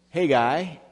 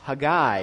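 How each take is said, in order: First: The stress is on the first syllable. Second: The stress is on the last syllable.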